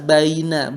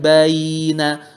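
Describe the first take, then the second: First: The vowel is held short, at normal length. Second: The vowel is stretched out long. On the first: The speaker calls it right. "biasa baina" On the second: The speaker calls it wrong. "bukan baina"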